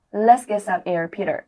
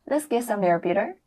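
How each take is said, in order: First: Imitating the clip. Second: Mild echo of the film line; imitating the clip. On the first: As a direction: copy her line with a bit more push. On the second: Teacher mimics girlfriend for students to copy. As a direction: copy her line gently. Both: Shown as a demonstration. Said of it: "注意模仿".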